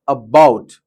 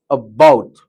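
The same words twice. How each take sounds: First: The first vowel is short and weak. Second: The same.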